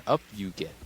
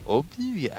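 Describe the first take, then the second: First: Half-hearted attempt at an alien master, near own pitch; lightly voiced wise creature, tentative; Yoda. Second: High, squeaky, badly faked alien master; Yoda. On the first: Old master urging Rey up, faint imitation. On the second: Old master urging Rey up, squeaky failed imitation. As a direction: leap up high for a mock little creature. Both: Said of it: "I can't fucking do Yoda".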